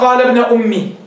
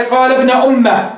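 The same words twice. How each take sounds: First: أمي read as "ummi" with a kasra and a long final ee. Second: أمه read as "ummah" with an open a before the final h; reading with fatha. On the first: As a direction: recite أمي ending in a long ee. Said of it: "ومنهم من قرأ". (اقرأ "أمي" بكسر الميم وياء ممدودة) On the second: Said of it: "منهم من قرأ في هذه الآية". (اقرأ "أمه" بفتح الميم وهاء في آخرها) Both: Shown as a demonstration.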